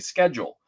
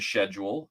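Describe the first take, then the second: First: It is said with an American pronunciation. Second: It is said with a British pronunciation. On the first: "they do the American type" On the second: "some regions of Britain where they say"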